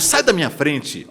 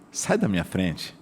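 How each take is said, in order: First: It is said in an aggressive tone. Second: It is said in a friendly, warm tone. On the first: The request comes across as offensive despite polite words. "Olha o tom de voz, olha a agressividade" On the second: The request is acceptable even without polite words. "mas eu fui simpático, carismático"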